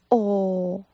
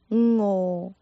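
First: The word begins directly with a vowel. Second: The word begins with a nasal ng sound. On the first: The speaker calls it wrong. "这个字有些朋友发出哦，这个呢就是广东话里面的懒音" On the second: The speaker calls it right. "正确的发音是有鼻音，一开始是嗯嗯，然后跟哦相拼"

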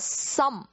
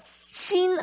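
First: The word ends with the lips closed. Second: The word ends without the lips closing. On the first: "some 是合起来的" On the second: "我们说的心和some 就说起来就很不一样"

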